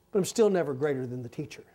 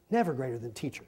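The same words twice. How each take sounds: First: Said in the usual way. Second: Softer, lower repeat of the line; quiet echo. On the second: Shown as a demonstration. Preacher echoing his point to himself, softly. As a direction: let it sink in, murmured.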